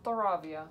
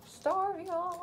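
First: Staravia with stuh-RAH-vee-ah, all syllables; corrected name. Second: Starvia said as star-VEE-ah, missing a syllable; Starvia, excited, two syllables before via; wrong name. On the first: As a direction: Staravia carefully repeated, ra in the middle. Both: Real, not acted. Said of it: "Isn't this Staravia".

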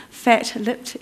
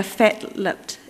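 First: Said in the usual way. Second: Slow New Zealand accent on fat-lipped. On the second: Shown as a demonstration. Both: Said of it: "that's pretty good, my New Zealand accent".

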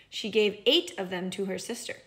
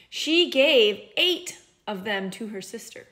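First: Said in the usual way. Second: Eight said slow and stressed. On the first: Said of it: "if we were listening carefully". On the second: Shown as a demonstration. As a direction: lean on the word eight, said slowly. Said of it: "I said she gave away eight".

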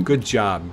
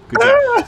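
First: Said in the usual way. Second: Squeaky high chipmunk voice; loud squeaky praise; helium voice. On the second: Real, not acted. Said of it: "I sound like the little chipmunk".

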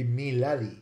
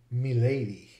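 First: "me lady" as "mee LAH-dee"; old short vowels. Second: "me lady" as "mih-LAY-dee"; shifted vowel. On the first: Lecturer showing the pre-shift form, me lady as mee LAH-dee. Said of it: "pronounced all with short vowels". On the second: Lecturer showing what it became, me lady as mih-LAY-dee. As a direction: say lady in "me lady" with a long ay. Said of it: "then eventually became". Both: Shown as a demonstration.

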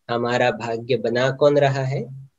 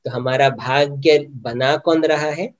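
First: Asked softly, as if to oneself; softer inward question. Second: Said in the usual way. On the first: Shown as a demonstration. Teacher asks listeners to question themselves, quietly. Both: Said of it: "अपने आप से पूछो".

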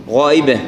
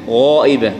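No difference in how they are said.

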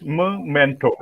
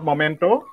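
First: "memento" slowly, with a reduced first vowel, falling; correct pronunciation. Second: "memento" with a full MO first syllable, rising; wrong pronunciation. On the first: Trainer corrects the word for a token of love, correct pronunciation. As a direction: say "memento" as muh-MEN-to, drawn out. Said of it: "it's memento". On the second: Trainer warns teachers off a common error, wrong pronunciation. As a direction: say "memento" as mo-MEN-to. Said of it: "Not memento". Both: Shown as a demonstration.

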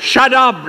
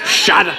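First: Mock command in a bad Spanish accent, higher pitch; badly faked Spanish accent. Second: Said in the usual way. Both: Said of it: "said it in a bad Spanish accent".

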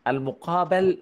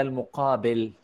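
First: "المقابل" with a before the final l; "المقابل" ending in -bal, not -bil; passive vowel contrast. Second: "المقابل" with i before the final l; "المقابل" ending in -bil, not -bal; active vowel contrast. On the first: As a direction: say "المقابل" as muqābal, fatha on the ب. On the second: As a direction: say "المقابل" as muqābil, kasra on the ب. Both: Shown as a demonstration. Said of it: "المقابل ولا المقابل؟".

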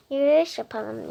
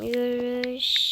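First: Said in the usual way. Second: Drawn out slowly; slow and deliberate. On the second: Shown as a demonstration. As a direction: say it slowly and clearly. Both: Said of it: "Yürüyüşe çıkalım diyeceğim".

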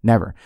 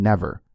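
First: Never punched out louder; second never, pressed home. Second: One firm never; stress on never. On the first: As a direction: hit never harder. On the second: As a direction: land the word never. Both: Shown as a demonstration. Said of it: "Underline that word in your mind".

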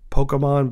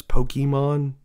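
First: Pokemon as POH-kuh-mon; Pokemon with "kuh" as its second syllable; schwa pronunciation. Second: Pokemon as POH-kee-mon; Pokemon with "kee" as its second syllable; ee pronunciation. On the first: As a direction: give Pokemon a lazy "uh" middle vowel. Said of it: "I don't know why I say Pokemon". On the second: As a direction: give Pokemon a clear "ee" middle vowel. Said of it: "but it's Pokemon". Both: Shown as a demonstration.

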